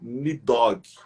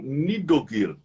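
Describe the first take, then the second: First: The name is said in two syllables, ending -og. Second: The name is said in three syllables, ending -ogir. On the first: This is the Portuguese-adapted form. "as pessoas falam Nidog, mas é um termo aportuguesado" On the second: This is closer to the original form. "Puxando um pouco mais para a pronúncia original"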